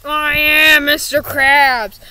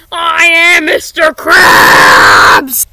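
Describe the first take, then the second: First: Said in the usual way. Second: Very slow, much louder wailing yell; anguished shout. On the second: Acted. Mister Krabs howling his identity at the boys, anguished yell. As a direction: drag out every word as a desperate cry. Accused of being a robot.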